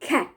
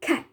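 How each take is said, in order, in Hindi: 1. पहली k ध्वनि में हवा का तेज़ झोंका होता है। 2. पहली k ध्वनि में हवा का तेज़ झोंका होता है।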